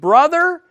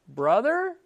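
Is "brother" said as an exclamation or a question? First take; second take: exclamation; question. First: It is said as a warm exclamation. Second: It is said as a probing question.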